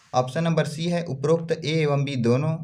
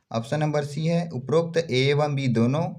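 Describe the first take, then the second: No difference in how they are said.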